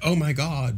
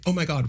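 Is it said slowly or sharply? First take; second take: slowly; sharply. First: It is said slowly and drawn out. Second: It is said quickly and sharply.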